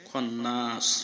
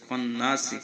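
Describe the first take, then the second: First: The word ends on the consonant s. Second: The word ends with a short vowel.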